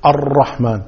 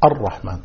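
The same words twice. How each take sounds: First: الرحمن with a rolled, trilled r; repeated ra. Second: الرحمن straight off with a single light r; unrepeated ra. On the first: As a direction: roll the r in الرحمن several times. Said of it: "والبعض يكرر الراء فيقول". (تكرار الراء في الرحمن) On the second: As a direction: say الرحمن directly, no trill on r. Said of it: "لا تكرر". (الرحمن دون تكرار الراء) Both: Shown as a demonstration.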